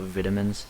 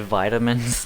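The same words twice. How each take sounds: First: The word is said the British way. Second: The word is said the American way. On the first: This is not how the speaker's country says it. "not vitamins" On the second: This is how the speaker's country says it. "We say vitamins ... something we have in common with the Americans"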